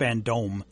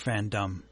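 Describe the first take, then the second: First: The last syllable sounds like 'dome'. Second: The last syllable is a weak 'dum' sound.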